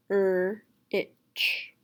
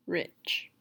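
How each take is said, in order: First: RICH split into "er" and "itch"; sounds separated. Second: Said in the usual way. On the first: Shown as a demonstration. Teacher splitting rich for a student to blend, sounds separated. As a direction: say "er-itch" with a gap between sounds. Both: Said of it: "What word is it?".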